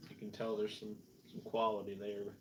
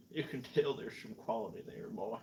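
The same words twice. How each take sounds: First: Said in the usual way. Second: Mock Southern accent, "tell" stretched toward "tayl". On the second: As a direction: repeat it like a folksy Southerner. Repeats own remark in put-on drawl.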